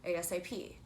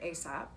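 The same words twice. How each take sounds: First: It is spelled out letter by letter. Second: It is said as one single word. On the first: "or you're saying it as the letters" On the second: "it's a word, a new word"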